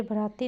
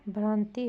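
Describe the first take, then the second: First: भ्राति said as bə-ra-ti, no nasal, extra vowel after bh; wrong pronunciation. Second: भ्रांति with a clear bhr cluster and nasal aa; correct pronunciation. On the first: Teacher showing pupils the mistaken version, plain voice. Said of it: "भ्राति नहीं होगा". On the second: Teacher giving pupils the correct form, plain voice. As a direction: say भ्रांति cleanly, nasalised braan-ti. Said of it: "भ्रांति होगा". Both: Shown as a demonstration.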